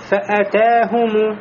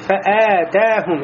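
First: The vowel after the hamza is short. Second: The vowel after the hamza is long. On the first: The speaker calls it right. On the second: The speaker calls it wrong.

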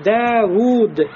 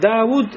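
First: Both vowels are held long. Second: The vowels are not both held long. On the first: The speaker calls it right. "Надо говорить «давуд». ... И «даль» с долготой, и «вау» с долготой" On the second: The speaker calls it wrong. "произносить «давуд» это будет ошибочным"

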